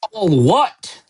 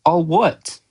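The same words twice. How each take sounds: First: Thundered, high-pitched outraged question; Hagrid. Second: Put-on higher, puzzled boy's question. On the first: Giant outraged at Harry's ignorance, thundering. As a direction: boom it back in disbelief. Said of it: "Hagrid thundered". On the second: Harry asking Hagrid what he means, puzzled. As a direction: ask it innocently, at ordinary volume. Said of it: "asked Harry". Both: A narrator's reading.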